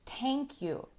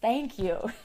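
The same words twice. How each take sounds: First: It begins with a different sound, not th. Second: It begins with a soft th, tongue out. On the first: The speaker calls it wrong. "It's not quite correct" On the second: The speaker calls it right. "you have to stick out your tongue"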